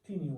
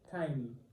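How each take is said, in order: First: The first vowel sounds like 'ee'. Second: The first vowel sounds like 'eye'. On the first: The speaker calls it wrong. "ډېر خلک دې ته ټیني وایي، خو دا ټیني نه دی" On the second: The speaker calls it right. "it is tiny"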